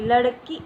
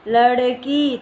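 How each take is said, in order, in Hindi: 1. आख़िरी स्वर छोटा और झटके वाला है। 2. आख़िरी स्वर लंबा और खिंचा हुआ है। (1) "अगर यहाँ पर छोटी की मात्रा लगती तो कैसे आवाज़ आती?" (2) "लेकिन ये क्या है?"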